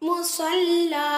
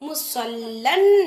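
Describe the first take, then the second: First: The word ends with a long 'a' vowel. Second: The word ends with an 'n' sound. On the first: "நம்ம எப்படி படிக்கணும்?" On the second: "முசல்லன் அப்படின்னு கொடுத்துருக்காங்க"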